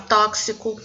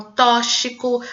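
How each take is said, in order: First: Tóxico with X said as KS, "tóksico"; correct tóxico. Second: Tóxico with X said as SH, "tóchico"; mispronounced tóxico. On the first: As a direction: say tóxico with a clear K before the S. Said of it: "no lugar de". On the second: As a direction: say tóxico without any K sound. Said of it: "Elas falam". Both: Shown as a demonstration.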